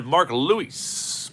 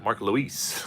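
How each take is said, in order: First: "Mark Lewis" slowed right down, rising at the end; mock accent. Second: Said in the usual way. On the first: Shown as a demonstration. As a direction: stretch out "Mark Lewis" like a fancy announcer, slow and rising. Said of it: "try to put some sort of accent on that". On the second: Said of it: "I don't know why I try".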